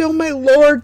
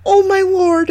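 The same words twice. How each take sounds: First: High, loud repeated cry of wonder; astonished exclamation. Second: Very high, loud cry of wonder; astonished exclamation. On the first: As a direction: say it again, still amazed. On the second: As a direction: gasp it out in amazement. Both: A narrator's reading. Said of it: "they exclaimed".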